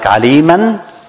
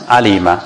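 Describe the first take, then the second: First: The word ends with an n sound. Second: The word ends with a lengthened vowel. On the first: The reading continues without stopping. "like aliman becomes alima" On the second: The reading stops on this word. "becomes alima"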